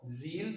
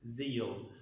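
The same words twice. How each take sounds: First: "zeal" as one syllable, ZEEL; pure long ee in "zeal", no glide; IPA pronunciation. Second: "zeal" drawn out as ZEE-uhl; native-speaker pronunciation. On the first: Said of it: "by I P A". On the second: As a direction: add a glide before the l in "zeal". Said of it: "they say zeal". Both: Shown as a demonstration.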